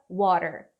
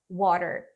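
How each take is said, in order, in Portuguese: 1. O som do meio é um flap, um r rápido. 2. O som do meio é um flap, um r rápido.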